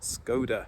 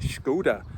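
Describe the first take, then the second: First: The name is pronounced a non-Czech way. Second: The name is pronounced the Czech way. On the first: The speaker calls it wrong. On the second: The speaker calls it right. "that's the way the Czechs say it"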